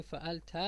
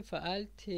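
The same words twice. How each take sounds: First: فعلت said "fa'alta", ending in an a vowel; fatha ending. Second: فعلت said "fa'alti", ending in an i/e vowel; kasra ending. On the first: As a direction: end فعلت on an a, "fa-al-ta". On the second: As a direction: end فعلت on an i, "fa-al-ti". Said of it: "کسره داره". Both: Shown as a demonstration.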